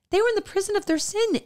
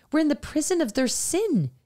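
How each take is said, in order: First: Much higher and fast, pressing the point; emphatic repeat. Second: Said in the usual way. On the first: Real, not acted. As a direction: lift it urgently, driving the point home.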